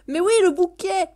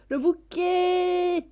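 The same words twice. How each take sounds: First: High, loud burst on "le bouquet"; delighted exclamation. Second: High, very slow "bouquet", last vowel held long; drawn-out delight. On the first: (exclamation ravie) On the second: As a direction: stretch the end of "bouquet" in a high held note. Repeats it, stretching the word. (« bouquet » ravi, très étiré) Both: Real, not acted.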